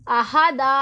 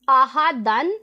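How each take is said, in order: First: अहादा ending in a held long aa, no n; pausal long alif. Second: आहादन ending in a short nasal -an; written form with tanween. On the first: Teacher shows how to stop on the word, अहादा with long final aa. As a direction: stretch the last vowel of अहादा and drop the tanween. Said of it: "एक अलिफ और ज़बर के साथ हमने पढ़ना है". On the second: Teacher reads out the written word, आहादन with final -an sounded. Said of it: "इसे फिर हमने साकिन नहीं करना दाल को". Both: Shown as a demonstration.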